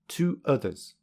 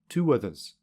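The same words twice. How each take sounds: First: The two words are said separately. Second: A w sound joins the two words.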